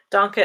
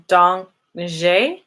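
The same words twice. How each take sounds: First: "Danke" said as DAHN-kuh; German "Danke". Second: "danke" attempted as dahnk-YAY, rising; tentative Dutch "danke". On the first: Correcting herself for viewers, German "Danke". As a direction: say "Danke" with a short -kuh ending. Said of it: "Danke is German". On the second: Asking viewers about their language, unsure "danke" as donk-zhay. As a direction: try "danke" with a questioning zh-ay ending. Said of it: "Is that how you say it?". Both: Shown as a demonstration.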